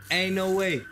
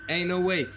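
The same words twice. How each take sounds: The two takes are said the same way.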